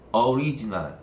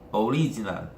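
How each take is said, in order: The two takes are said the same way.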